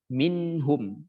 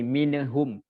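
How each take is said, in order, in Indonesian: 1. Bunyi n ditahan kuat tanpa vokal tambahan. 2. Ada bunyi vokal tambahan di antara n dan h. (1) "Jadi harus ditekan" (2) "Kalau nggak ditekan jadi mineh"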